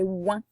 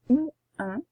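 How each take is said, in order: First: One smooth nasal sound in a single syllable. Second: Two separate vowel sounds, split apart. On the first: The speaker calls it right. "c'est ouin" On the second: The speaker calls it wrong. "Ce n'est pas ou un"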